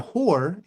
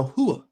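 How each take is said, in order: First: Said in the usual way. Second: "hua" in two syllables, HOO-ah, no r; r-less New York slang "hua"; New York pronunciation. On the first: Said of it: "is a hua". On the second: Shown as a demonstration.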